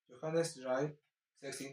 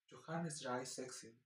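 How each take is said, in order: First: It is said with a Peruvian Spanish accent. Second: It is said softly with a German accent. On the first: "con acento peruano" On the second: "con acento eh, alemán es mucho más suave"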